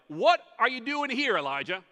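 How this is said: It is said in a rebuking, scolding tone.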